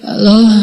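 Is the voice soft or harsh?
soft. It is said softly, like someone just waking up.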